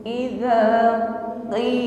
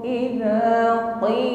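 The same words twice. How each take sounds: Both takes have the same delivery.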